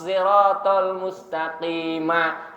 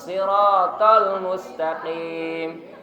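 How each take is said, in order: First: The final m links into an added vowel. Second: The phrase stops on a closed final m. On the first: The reciter joins it to the next verse. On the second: The reciter pauses at the end of the verse.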